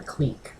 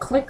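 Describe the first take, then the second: First: The vowel is long, like in 'seek'. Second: The vowel is short, like in 'sick'. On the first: "I've always thought it's pronounced cleek" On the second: "I heard her say it as click"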